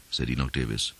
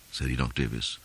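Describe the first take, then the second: No difference in how they are said.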